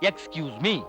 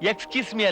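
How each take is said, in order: First: It sounds like excuse me. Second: It sounds like es kiss me. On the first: The speaker calls it right. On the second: The speaker calls it wrong.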